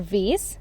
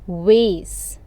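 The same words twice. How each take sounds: First: The word begins with a V sound. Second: The word begins with a W sound. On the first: "in English" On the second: "in Korean, you are going to say it"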